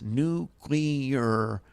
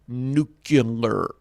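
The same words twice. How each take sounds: First: The second syllable sounds like 'clee'. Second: The second syllable sounds like 'cue'. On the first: The speaker calls it right. "Where is the U after the C? It comes before the C" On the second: The speaker calls it wrong. "It is not, I repeat, not nuclear"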